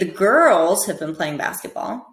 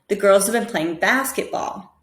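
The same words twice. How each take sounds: First: The word girls carries the main stress. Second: The word basketball carries the main stress. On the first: "try and stress each word differently" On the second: "So basketball is the most important there"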